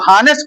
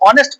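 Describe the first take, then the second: First: The word begins with an h sound. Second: The word begins without an h sound. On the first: The speaker calls it wrong. "कुछ लोग हानेस्ट पढ़ते हैं" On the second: The speaker calls it right. "तो एच silent रहता है"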